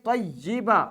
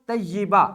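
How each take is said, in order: The two takes are said the same way.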